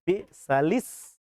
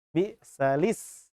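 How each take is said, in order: Both takes have the same delivery.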